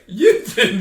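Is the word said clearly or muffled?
muffled. It is said muffled, as if through chips.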